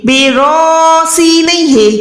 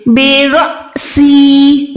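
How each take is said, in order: First: बेरॉसी slow with an open long रॉ; the wrong way, बेरॉसी held open; wrong stretched hamza. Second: बेरॉसी very slow, catch on the alif; jerked alif. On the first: (गलत बेरॉसी) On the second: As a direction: stop sharply after रॉ in बेरॉसी. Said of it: "अलिफ पे आपने झटका लगाना है". (झटके के साथ बेरॉसी) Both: Shown as a demonstration.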